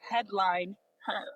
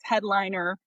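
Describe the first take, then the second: First: The name is said slowly, split into parts. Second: The name is said quickly as one word. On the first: Put a woman at the top of the lineup. "if you say it slowly" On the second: Someone who tops the lineup. "If you say it fast"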